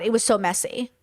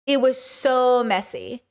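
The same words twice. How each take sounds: First: Said in the usual way. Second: "It was so messy" drawn out slowly, each word weighed; slow emphatic repeat. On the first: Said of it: "repeats it slower". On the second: Shown as a demonstration. Repeating to a viewer how messy it was, slow and emphatic. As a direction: let it sink in, slowly. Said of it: "repeated for emphasis".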